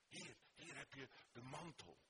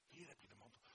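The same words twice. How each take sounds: First: Said in the usual way. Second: Much softer echo of the offer; soft repeat. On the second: Acted. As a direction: hush it on the repeat. (zachtjes herhaald)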